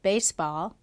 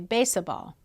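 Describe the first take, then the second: First: The two parts join with no extra vowel. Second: An extra uh vowel is inserted between the parts. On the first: The speaker calls it right. "instead of baseball" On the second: The speaker calls it wrong. "Or within a bisyllabic word"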